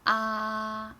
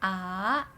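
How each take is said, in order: First: The pitch stays high and level. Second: The pitch rises from middle to high. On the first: "make it a first tone. The first tone has a horizontal mark" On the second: "that's a second tone"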